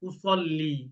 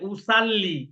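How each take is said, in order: First: The s is heavy, with rounded lips. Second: The s is light, with spread lips. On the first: The speaker calls it right. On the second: The speaker calls it wrong.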